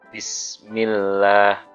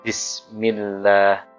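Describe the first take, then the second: The two takes are said the same way.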